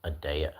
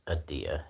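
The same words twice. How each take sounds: First: "Adea" with an "ay" in the middle; corrected pronunciation. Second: "Adia" with an "ee" in the middle; tentative pronunciation. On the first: Streamer repeating a corrected name, "Adea" said uh-DAY-uh. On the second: Streamer trying out a name, "Adia" said uh-DEE-uh. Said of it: "Did I say it right?". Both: Shown as a demonstration.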